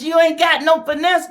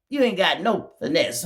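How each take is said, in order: First: Much higher and louder on ain't; mock him loudly; loud jeer. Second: Said in the usual way. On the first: Real, not acted. Calling him out.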